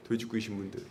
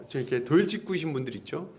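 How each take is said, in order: First: Quiet low repeat of 돌직구이신 분들; a hushed aside to the congregation; soft aside. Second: Said in the usual way. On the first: Shown as a demonstration. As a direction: murmur it back to yourself.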